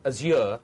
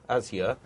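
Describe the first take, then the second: First: Azure as az-YOOR; stress on second syllable. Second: Azure as AZ-yer; stress on first syllable. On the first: Host asking guest about the product, Azure as az-YOOR. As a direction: say Azure with the weight at the end, az-YOOR. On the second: Host correcting to the other option, Azure as AZ-yer. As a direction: say Azure with the weight up front, AZ-yer. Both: Shown as a demonstration. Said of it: "how you would like us to pronounce".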